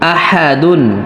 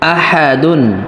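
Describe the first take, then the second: First: The word ends with a full '-dun' sound. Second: The word ends with a full '-dun' sound.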